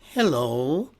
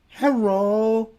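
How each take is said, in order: First: The middle consonant is a clear L sound. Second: The middle consonant is a rolled, trilled R. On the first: "we're using the L" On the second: "They're using the R"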